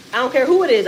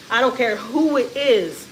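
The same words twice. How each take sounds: First: Louder insistence. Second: Slow deliberate. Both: Real, not acted. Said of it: "repeated for emphasis".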